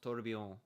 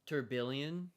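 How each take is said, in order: First: It is said with French sounds. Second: It is read out with English sounds. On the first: The speaker calls it right. "it's pronounced tourbillon. And you gotta use a French accent for it" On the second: The speaker calls it wrong. "It's spelled like"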